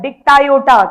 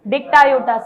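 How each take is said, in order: First: Dictyota called out louder for the class. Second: Said in the usual way. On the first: Shown as a demonstration. Teacher leads class to repeat, calling the name louder. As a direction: lead the class in shouting "Dictyota". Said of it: "बोलो मेरे साथ". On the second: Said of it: "क्या नाम है?".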